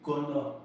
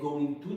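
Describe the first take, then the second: First: The words are blended into one short word. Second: Both words are said fully and separately. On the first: "plein d'anglais qui disent gonna" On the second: "et non going to"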